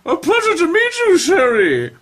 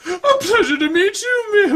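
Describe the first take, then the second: First: High, warbling grande dame, laughing through it; high, loud, giggling grande dame; Julia Child-like voice. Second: A bad Julia Child, cracking up; high Julia Child voice collapsing into laughter; Julia Child impression. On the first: Acted. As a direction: play it as an over-the-top Julia Child. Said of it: "that's why you can see when Missus Corliss". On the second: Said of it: "a Julia Child impression".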